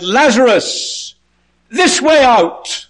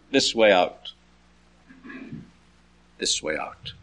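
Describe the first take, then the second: First: High, long-drawn shout; calling out. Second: Fading echo. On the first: Jesus outside the tomb to Lazarus, high drawn-out call. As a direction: summon someone from far off, slow and very high. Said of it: "stood outside the tomb and he said". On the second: Jesus' call echoing round the tomb, low and fading. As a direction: lower repeat dying away to almost nothing. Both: Acted.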